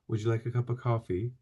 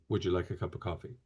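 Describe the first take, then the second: First: It is said apologetically, in a Canadian manner. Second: It is said directly, as a statement, American-style.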